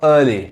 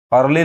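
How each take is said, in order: First: अर्ली with no r, just uh-lee; correct pronunciation. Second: अर्ली with a clear rolled r, ar-li; common wrong way. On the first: Teacher gives students the right way, r silent. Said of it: "लेकिन क्या होगा?". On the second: Teacher shows students the common mistake, r sounded. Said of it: "अर्ली लोग कहते हैं". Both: Shown as a demonstration.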